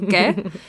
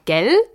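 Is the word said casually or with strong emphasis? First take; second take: casually; emphasis. First: It is said casually, without strong emphasis. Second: It is said with strong, exaggerated emphasis.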